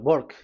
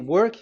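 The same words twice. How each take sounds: First: The word begins with a B-like sound. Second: The word begins with a W sound. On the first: "they say uh, work. ... W is pronounced as B" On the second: "if you say"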